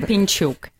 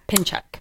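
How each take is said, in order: First: The surname is said with a Ukrainian pronunciation. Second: The surname is said with an American pronunciation. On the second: "That's our American version"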